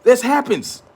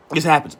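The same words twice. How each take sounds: First: High, insistent This happens; emphatic. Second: Said in the usual way. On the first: Real, not acted. Repeats the phrase, first emphatic.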